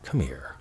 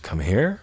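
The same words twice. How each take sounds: First: It is said in a warm, loving tone. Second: It is said in a confused, puzzled tone.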